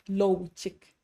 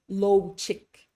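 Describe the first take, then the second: Both takes have the same delivery.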